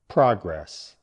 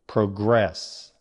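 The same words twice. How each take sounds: First: The stress is on the first syllable. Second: The stress is on the second syllable. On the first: It means forward movement, a noun. "Stress on the first part" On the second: It means to move forward, a verb. "Stress moves to the second syllable"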